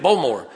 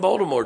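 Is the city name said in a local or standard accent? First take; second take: local; standard. First: The name is said in a local accent. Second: The name is said in a standard accent.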